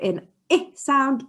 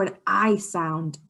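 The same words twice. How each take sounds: First: Short "I" as in ink; short I sound. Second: Long "I" as in ice; letter "I" with its long vowel, as in iron; long I sound. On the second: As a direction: say "I" like eye. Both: Shown as a demonstration. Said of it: "an I sound or an I sound".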